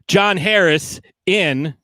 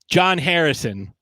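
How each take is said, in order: First: The name breaks before its last syllable. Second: The name flows smoothly as one word. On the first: The speaker calls it wrong. "he said John Harris in" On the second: The speaker calls it right. "He was supposed to be saying"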